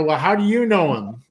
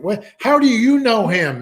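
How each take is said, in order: First: Said in the usual way. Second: High, loud, urgent retold question; shocked, almost crying. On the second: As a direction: imitate a jarred man suddenly overcome and demanding an answer. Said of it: "went from laughing to almost crying".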